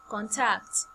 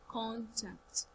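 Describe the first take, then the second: First: The first syllable is low, the second high. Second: The first syllable is high, the second low. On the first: It is the action of getting in touch. "when it's a verb, the first syllable is low, then the second syllable is what? High" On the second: It names a piece of information for reaching someone. "when it's a noun, we start from high tone to low tone"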